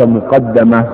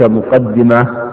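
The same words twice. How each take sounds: First: مقدمة as muqaddama, short a after the dd; fatha on the dal. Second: مقدمة as muqaddima, short i after the dd; kasra on the dal. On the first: Teacher explaining Tha'lab's reading, مقدمة as muqaddama. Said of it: "بفتح الدال". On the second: Teacher explaining the well-known reading, مقدمة as muqaddima. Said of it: "بكسر الدال". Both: Shown as a demonstration.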